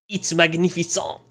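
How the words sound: It is said in a put-on French accent.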